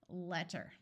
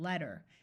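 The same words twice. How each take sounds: First: The middle consonant is a crisp, clear T. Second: The middle consonant sounds like a soft D. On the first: "I am pronouncing these double T's with very clear sounds" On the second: "in American English, most of the time they sound more like"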